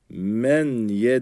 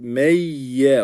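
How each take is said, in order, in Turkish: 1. n, y'den önce açıkça telaffuz edilir. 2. n, çift nazal y sesine karışır. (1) "Men ye değil" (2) "meyye olacak"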